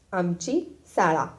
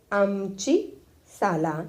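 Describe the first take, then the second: First: "शाळा" with sh and retroflex ळ, slowly; drawn-out schoolboy reading ending on "शाळा" with retroflex ळ; pupil's corrected reading. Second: "साला" said with a plain l, slowly drawn out; drawn-out schoolboy reading ending on "साला" with plain l; pupil's misreading. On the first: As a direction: read "शाळा" slowly, opening on sh and falling. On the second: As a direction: read "साला" haltingly, l in place of retroflex ळ. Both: A narrator's reading. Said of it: "पोरगं वाचू लागलं".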